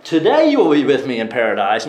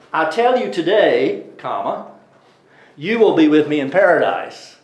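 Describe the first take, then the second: First: "Today" stressed at the front of "you will be with me in paradise"; today opens the promise. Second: "I tell you today" set apart, then a break before "you will be with me in paradise"; pause after today. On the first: Teacher reading the verse the usual way, "Today" leading. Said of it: "Usually we read that". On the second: Teacher reading the verse the Witnesses' way, pausing after "today". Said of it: "They say, well". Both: Shown as a demonstration.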